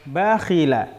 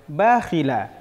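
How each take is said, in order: Both takes have the same delivery.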